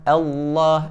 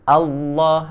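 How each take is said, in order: No difference in how they are said.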